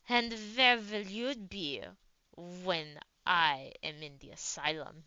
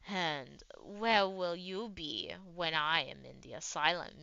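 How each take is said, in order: First: It is read in a put-on Russian accent. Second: It is read in the reader's ordinary accent.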